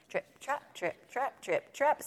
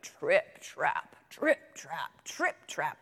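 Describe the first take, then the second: First: High, light "trip, trap"; light goat hooves. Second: Low, heavy "trip, trap"; heavy goat hooves. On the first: Second goat crossing the bridge, high light hoofbeats. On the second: Biggest goat crossing the bridge, low heavy hoofbeats. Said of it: "the biggest billy goat was so heavy". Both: A narrator's reading.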